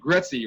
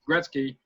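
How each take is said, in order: First: The word is said too fast with a slurred R. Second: The word is said carefully with a clear R. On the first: The speaker calls it wrong. "if I say it too fast, I may say Gretzky" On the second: The speaker calls it right. "if I can say Gretzky"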